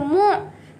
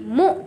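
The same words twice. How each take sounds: First: It ends with a throaty squeezed sound. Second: It ends with a plain glottal stop. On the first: The speaker calls it wrong. "Kalau tuan-tuan dan puan-puan baca mu, itu huruf Ain" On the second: The speaker calls it right. "huruf Hamzah yang mati"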